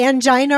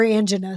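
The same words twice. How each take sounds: First: Angina as an-JY-nuh; long-i angina. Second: Angina as AN-juh-nuh; short-i angina. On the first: Host asking guest which pronunciation, angina as an-JY-nuh. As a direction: say angina with stressed middle "eye". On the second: Host offering guest the other pronunciation, angina as AN-juh-nuh. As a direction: stress the first syllable of angina, short middle vowel. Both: Shown as a demonstration. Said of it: "some people say it different".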